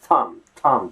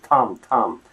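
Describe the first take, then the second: The two takes are said the same way.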